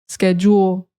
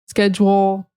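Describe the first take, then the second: No difference in how they are said.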